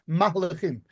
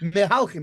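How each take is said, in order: First: It begins 'mah', with a full 'li' after. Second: It begins 'me', with a full 'hal' after. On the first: The speaker calls it right. "It's mahlichim" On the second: The speaker calls it wrong. "It's not"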